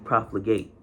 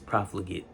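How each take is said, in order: First: The last syllable is pronounced like 'ate'. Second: The last syllable is pronounced like 'it'. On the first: It is used as a verb. "if this was a verb, it'd be profligate" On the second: It is used as an adjective. "This is an adjective, so it's profligate"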